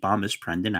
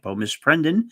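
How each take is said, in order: First: The first part of the name has two syllables. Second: The first part of the name has one syllable. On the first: The speaker calls it wrong. "which I had been mispronouncing as" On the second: The speaker calls it right. "I apologize for that"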